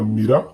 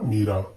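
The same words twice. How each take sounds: First: The first vowel is short. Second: The first vowel is long. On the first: The speaker calls it wrong. "म में छोटी की मात्रा वाला" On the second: The speaker calls it right. "म में बड़ी की मात्रा"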